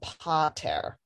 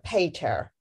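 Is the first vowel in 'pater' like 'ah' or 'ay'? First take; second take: ah; ay. First: The first vowel sounds like 'ah'. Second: The first vowel sounds like 'ay'. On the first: The speaker calls it right. "the A is an ah" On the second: The speaker calls it wrong. "not an A. So it's not a pater"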